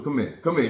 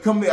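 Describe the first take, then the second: First: Said in the usual way. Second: Loud high call of "Come here". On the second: Retold or imitated. Calling her back during fight.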